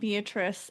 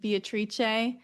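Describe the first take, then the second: First: The name has an English pronunciation. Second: The name has an Italian pronunciation.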